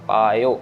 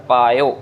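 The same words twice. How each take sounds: No difference in how they are said.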